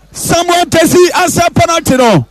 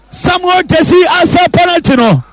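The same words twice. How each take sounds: The two takes are said the same way.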